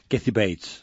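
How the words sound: The name is said with an American English accent. "el chicle en la boca de Chicago para decir bien el nombre"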